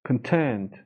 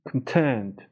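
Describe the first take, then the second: Both takes have the same delivery.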